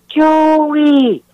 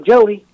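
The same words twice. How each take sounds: First: It is called with a raised voice. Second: It is called softly and casually.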